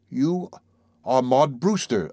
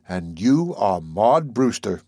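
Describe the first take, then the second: First: Slow, almost accusing statement; slow and certain. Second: Slow, grave statement; solemn. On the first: Narrator recognising Maud, slow and certain. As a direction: charge her with it like a crime. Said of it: "I said slowly and with certainty". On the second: Narrator gazing at Maud, solemn and slow. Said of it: "I said solemnly". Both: Acted.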